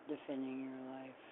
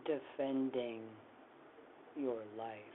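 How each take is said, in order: First: The words are run together less carefully. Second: The words are articulated carefully and distinctly. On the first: The speaker calls it wrong. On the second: The speaker calls it right.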